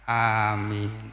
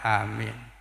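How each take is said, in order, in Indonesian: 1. Vokal pertama dan kedua keduanya panjang. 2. Hanya vokal pertama yang panjang. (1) "Hamzahnya panjang, mimnya panjang" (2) "kalau hamzahnya panjang, mimnya pendek"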